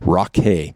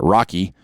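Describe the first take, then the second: First: The name ends with an 'ay' sound. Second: The name ends with an 'ee' sound. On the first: The speaker calls it right. "but Rockay" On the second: The speaker calls it wrong. "I'm not going to pronounce it Rocky"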